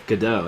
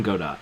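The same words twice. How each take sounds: First: Godot with a silent final T; proper pronunciation. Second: Godot with the final T sounded; own pronunciation. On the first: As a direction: say Godot as guh-DOH. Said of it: "as his name is properly pronounced". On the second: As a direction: say Godot as GO-dot. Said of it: "but I call him Godot". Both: Shown as a demonstration.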